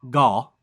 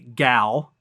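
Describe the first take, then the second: First: The name is said with an Israeli-style vowel. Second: The name is said with an American vowel. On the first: "It's like gal" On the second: "we of course say gal"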